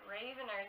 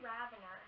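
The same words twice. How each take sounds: First: The first part sounds like the name Raven. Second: The first part does not sound like Raven. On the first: The speaker calls it wrong. "I was saying it Ravener this whole time" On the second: The speaker calls it right. "It was really Ravener"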